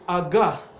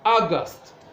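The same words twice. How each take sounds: First: The stress is on the second syllable. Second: The stress is on the first syllable. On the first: It is used as an adjective. "when it's used as an adjective" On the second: It is used as a noun. "the stress is on the first syllable"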